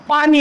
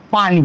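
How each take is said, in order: First: पाणी with a long ee at the end; पाणी ending in a drawn ee; long final vowel. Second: पाणी with a short i at the end; पाणी ending in a brief i; short final vowel. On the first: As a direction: lengthen the last vowel of पाणी. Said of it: "पाणी दुसरी वेलांटी असणार आहे". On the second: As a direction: clip the last vowel of पाणी. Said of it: "पहिली वेलांटी असेल". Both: Shown as a demonstration.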